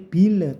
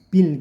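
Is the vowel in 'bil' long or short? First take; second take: long; short. First: The vowel is drawn out long. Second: The vowel is kept short. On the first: The speaker calls it wrong. "tidak boleh bil" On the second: The speaker calls it right. "tapi bil gitu saja"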